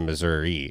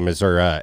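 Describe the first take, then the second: First: It is said the usual, non-local way. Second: It is said the local Southern Missouri way. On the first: This is how people elsewhere say it. "instead of Missouri" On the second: This is how people in the south of the state say it. "which is where they say Missouri"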